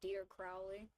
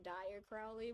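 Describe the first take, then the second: First: The first name rhymes with 'dear'. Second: The first name rhymes with 'dire'. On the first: The speaker calls it right. "his name is meant to be pronounced as Dear Crowley" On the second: The speaker calls it wrong. "Not Dire Crowley, which is how I usually default to saying his name"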